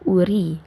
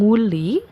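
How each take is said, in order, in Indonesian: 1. Diawali vokal dan memakai r. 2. Diawali bunyi ng dan memakai l. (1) "jadi harusnya uri" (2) "Jadi bukan yang nguli"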